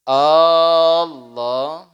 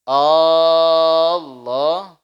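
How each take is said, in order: The two takes are said the same way.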